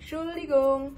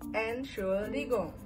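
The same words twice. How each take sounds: First: The word is said with its start dropped. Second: The word is said in its full length. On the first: "bisa kalian persingkat jadi Entschuldigung" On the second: "yang satu panjang utama itu adalah Entschuldigung"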